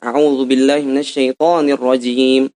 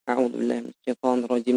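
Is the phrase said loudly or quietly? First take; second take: loudly; quietly. First: It is said in a loud, clearly audible voice. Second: It is said in a quiet, barely audible voice. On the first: Others nearby are meant to hear it. "jahar. Apa itu jahar? Suaranya keras" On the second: Only the reciter is meant to hear it. "Atau dengan suara sir"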